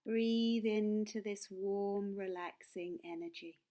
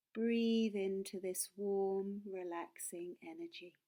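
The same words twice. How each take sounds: The two takes are said the same way.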